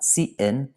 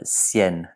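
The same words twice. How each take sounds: First: Cien split into two syllables, see-EN; wrong two-syllable cien. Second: Cien blended into one syllable, syen; correct one-syllable cien. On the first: Teacher showing students the wrong way, two syllables. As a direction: pull the vowels apart in cien, two beats. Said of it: "This is not cien". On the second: Teacher showing students the right way, one syllable. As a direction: glide the vowels together in cien, one beat. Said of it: "but cien". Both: Shown as a demonstration.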